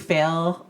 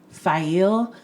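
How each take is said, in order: First: The name sounds just like the word 'fail'. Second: The name sounds different from the word 'fail'. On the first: The speaker calls it wrong. "she will always be Fail to both of us" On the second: The speaker calls it right. "we're supposed to pronounce it"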